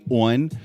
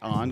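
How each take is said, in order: First: It is said with a Baltimore accent. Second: It is said with a neutral accent.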